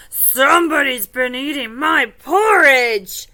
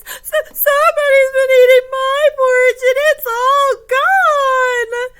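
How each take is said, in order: First: Big, loud storybook bear voice; Papa Bear. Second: Very high, loud, upset little bear; Baby Bear. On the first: Finding his porridge eaten, loud indignant father bear. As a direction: boom it out in indignant surprise. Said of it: "Papa Bear goes over to his bowl". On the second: Finding his porridge all gone, mock wailing little bear. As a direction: wail it in a hammed-up child voice. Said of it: "He's so upset". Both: Acted.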